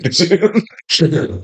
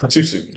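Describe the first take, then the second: First: Higher mock-shocked repeat; mock outrage. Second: Said in the usual way. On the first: Real, not acted. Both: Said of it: "That's a little too soon".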